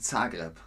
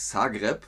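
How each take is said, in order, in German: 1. Der Name wird deutsch ausgesprochen. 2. Der Name wird kroatisch ausgesprochen. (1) "sondern wir sagen Zagreb" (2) "nicht Zagreb, wie die Kroaten"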